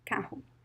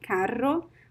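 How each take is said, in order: First: The double R sounds like an H. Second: The double R is not an H sound. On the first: It is the most common pronunciation. "So the double R sounds like H" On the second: It is a less common regional accent. "Some people would say carro, but this is not very common"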